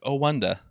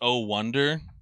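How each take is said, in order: First: It is said in a mocking British accent. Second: It is said in a plain, everyday accent.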